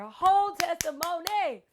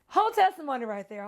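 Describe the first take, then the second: First: Higher, savored repeat of "whole testimony"; emphatic exclamation. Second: Said in the usual way. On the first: Real, not acted. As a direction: stretch the last syllable of "testimony" for effect.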